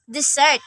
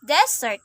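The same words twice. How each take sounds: First: DeSERT, second syllable stressed; verb stress. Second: DEsert, first syllable stressed; noun stress. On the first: Teacher showing learners the verb Desert, end-stressed. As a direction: say Desert as di-ZERT. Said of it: "a verb". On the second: Teacher showing learners the noun Desert, front-stressed. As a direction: say Desert as DEZ-ert. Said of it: "a noun". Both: Shown as a demonstration.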